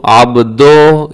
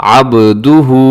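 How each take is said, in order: First: अब्दो ending in an open "do"; wrong pronunciation. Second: अब्दुहु with clean short "du"; correct pronunciation. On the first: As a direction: say अब्दो with "o" in place of "u". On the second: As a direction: say अब्दुहु with rounded "u" and ayn. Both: Shown as a demonstration. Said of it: "ये दुरुस्त नहीं है".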